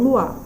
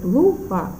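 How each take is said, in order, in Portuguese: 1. As vogais são pronunciadas juntas, em uma só sílaba. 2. As vogais são separadas em duas sílabas. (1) "eu não falo luar" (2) "Eu falo lua"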